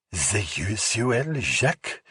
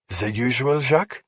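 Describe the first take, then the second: First: Mocking whisper. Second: Put-on high, rising French-accented question. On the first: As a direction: tease him by aping the bartender slowly. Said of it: "Rachel whispered mockingly". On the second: Bartender asking a regular, French accent. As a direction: offer his usual drink in a French accent. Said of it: "that accent is fake". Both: A narrator's reading.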